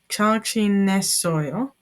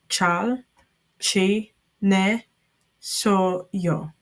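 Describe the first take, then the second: First: It is said at normal speed. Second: It is said slowly.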